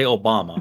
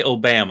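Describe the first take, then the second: First: "Obama" said oh-BAH-muh, lower. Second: "Obama" said oh-BAM-uh. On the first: Texan gives own version, "Obama" as lower oh-BAH-muh. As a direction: say "Obama" with an ah in the middle. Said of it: "I say Obama". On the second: Texan disowns the analogy, "Obama" as oh-BAM-uh. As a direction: say "Obama" with the a of Alabama. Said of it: "I do not say Obama". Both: Shown as a demonstration.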